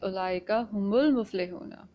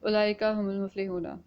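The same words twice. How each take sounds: First: The word humul carries strong stress. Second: It is said flat with no stressed word. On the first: The speaker calls it right. "this hum is actually giving a stress" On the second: The speaker calls it wrong. "in a monotone"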